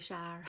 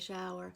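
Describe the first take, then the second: First: The word is said as one syllable. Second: The word is said with two syllables. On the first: This is how older local people say it. "most of the older folks around here say shire" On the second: This is how the speaker says it. "I just say shower"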